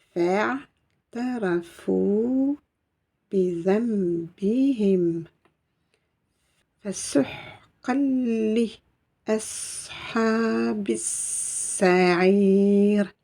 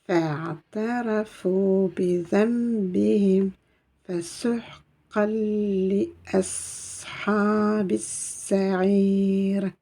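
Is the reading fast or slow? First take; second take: slow; fast. First: The verse is read at a slow pace. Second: The verse is read at a faster pace. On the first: "lentement mais sûrement" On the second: "On reprend un peu plus vite"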